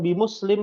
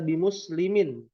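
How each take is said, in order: First: The word ends on a bare m sound. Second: The word ends with an added in syllable. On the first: This is the casual conversational form. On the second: The full case ending is kept.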